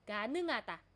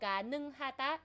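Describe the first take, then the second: First: The h sound in the middle is silent. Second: The h sound in the middle is pronounced. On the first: "in the natural way, dahil nasalized din po... nagiging silent ulit si hiyot" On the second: "in the normal beginner way po"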